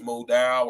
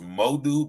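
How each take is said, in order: First: "Modal" said as moh-DOW, not moh-DOO; alternative pronunciation. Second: "Modu" said as moh-DOO; pronounced Modu. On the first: Offering a viewer another reading of the name, "Modal" as moh-DOW. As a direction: end "Modal" on a different vowel from oo. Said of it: "but if it's Modal". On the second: Checking a viewer's last name, "Modu" ending in oo. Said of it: "your last name is pronounced". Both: Shown as a demonstration.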